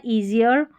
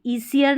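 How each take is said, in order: First: "ईजियर" with a voiced z, ee-zi-yar; correct Z sound. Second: "ईसियर" with a hissed s sound in the middle; mispronounced with S. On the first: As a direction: model "ईजियर" with z in place of s. ("ईजियर" में स नहीं, ज़ की आवाज़) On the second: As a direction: say "ईसियर" as ee-si-yar, the mistake to avoid. ("ईसियर" में ज़ की जगह स बोलें) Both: Shown as a demonstration. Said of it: "ईसियर नहीं पढ़ना".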